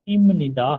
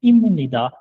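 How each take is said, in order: No difference in how they are said.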